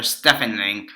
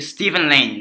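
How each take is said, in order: First: Stephen with a short e and an f; Stephen as STEFF-en. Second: Stephen with a long ee and a v; Stephen as STEE-ven. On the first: Offering another way to say the actor's name, Stephen as STEFF-en. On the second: Unsure of the actor's name, Stephen as STEE-ven. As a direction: say Stephen like Steven. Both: Real, not acted. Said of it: "or Stephen Lang".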